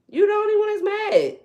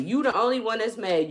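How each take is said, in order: First: High, loud taunting repeat of the line; mocking shout. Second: Said in the usual way. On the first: Real, not acted. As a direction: throw it back at them, mocking, much higher and louder.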